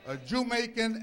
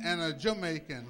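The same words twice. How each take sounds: First: Loud "JEW-maican" for "Jamaican"; punning pronunciation. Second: Said in the usual way. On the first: Shown as a demonstration. Preacher repeating his pun to the congregation, "Jamaican" as JEW-maican. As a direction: hit "Jew" at the start of "Jamaican". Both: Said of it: "So you're both".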